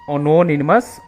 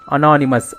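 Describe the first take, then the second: First: The second syllable sounds like 'no'. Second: The second syllable sounds like 'na'. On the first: The speaker calls it wrong. "They don't pronounce it as anonymous" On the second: The speaker calls it right. "but they pronounce it as anonymous. Only again na only it is ana"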